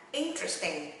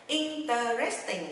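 First: "interesting" squeezed into "IN-tres-ting"; three-syllable interesting. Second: "interesting" spread into "in-ter-res-ting"; four-syllable interesting. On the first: Teacher modelling for learners, three-syllable "interesting". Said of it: "chỉ có ba âm tiết". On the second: Teacher showing a common mistake, four-syllable "interesting". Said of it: "đọc thành bốn âm tiết". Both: Shown as a demonstration.

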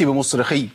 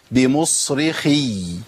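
First: بمصرخي ending abruptly on a short khi; cut-short final ya. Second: بمصرخي very slow, final ya sustained; long doubled ya. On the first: Teacher showing what not to say, بمصرخي with ya cut short. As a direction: drop the held y at the end of بمصرخي. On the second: Teacher giving the correct example, بمصرخي with long-held ya. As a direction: stretch the closing y of بمصرخي for two letters. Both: Shown as a demonstration. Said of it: "ما أقولش بمصرخي".

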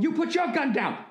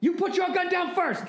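First: High-pitched mock standoff yell, "your" stressed; mock movie yell. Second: Even higher, more strained mock yell, "your" stressed; mock yell, pushed higher. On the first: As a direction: bark it like a Bourne Identity standoff. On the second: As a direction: push the standoff line up to a squeal. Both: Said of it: "yelling at the other guy going".

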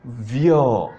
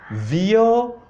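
First: "vyoo" as one syllable vyo, falling and lower; vyoo for toilets. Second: "Vyoo" said as vi-oo, two separate vowels, level ending; vioo for mirrors. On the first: Teacher contrasting toilet with mirror, falling vyo. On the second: Teacher contrasting mirror with toilet, careful vi-oo. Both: Shown as a demonstration. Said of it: "You don't hear the difference?".

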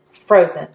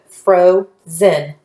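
First: Said in the usual way. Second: FROZEN split into FRO with long O, pause, ZEN; syllable by syllable. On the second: Shown as a demonstration. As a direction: sound out "Frozen" slowly in two separate syllables. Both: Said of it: "and then blend them together".

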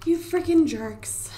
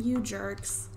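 First: Slow, voiceless whispered scold; whispered exasperated scold. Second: Said in the usual way. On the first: Real, not acted. Annoyed at broken shower.

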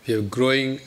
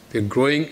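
Both takes have the same delivery.

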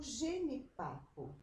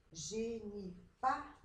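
First: Said in the usual way. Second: "genipapo" slowly, PA stretched out; stress on PA. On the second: Shown as a demonstration. Teacher shows pupils the strong syllable, stressing PA in "genipapo". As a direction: lean long on PA in "genipapo". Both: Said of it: "aquela sílaba mais forte".

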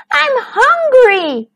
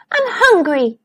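First: High, slow, drawn-out whine; whining. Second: Mild moan.

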